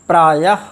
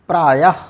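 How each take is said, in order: Both takes have the same delivery.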